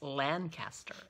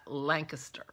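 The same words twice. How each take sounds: First: It uses a different, non-Pennsylvania pronunciation. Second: It uses the local Pennsylvania pronunciation. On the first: This may be how the Texas town is said. "it's very possible it's Lancaster in Texas" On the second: This is how the Pennsylvania town is said. "In Pennsylvania, we pronounce that Lancaster"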